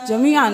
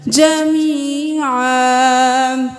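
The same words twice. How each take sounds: First: The vowel 'ee' is cut short. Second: The vowel 'ee' is stretched out longer. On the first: The speaker calls it wrong. "नहीं करना" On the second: The speaker calls it right. "या मद्दा है, एक अलिफ के बराबर खींचे"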